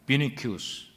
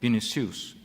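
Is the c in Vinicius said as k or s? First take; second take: k; s. First: The c is said as a k sound. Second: The c is said as an s sound. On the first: "C 발음이 키라고도 할 수도 있고" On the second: "C라고도 할 수도 있고"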